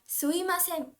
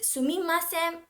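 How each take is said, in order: First: The middle m sound is left out. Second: The middle m sound is pronounced. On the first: "so they be like suimasen" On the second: "Some people find it difficult to pronounce mi and ma together"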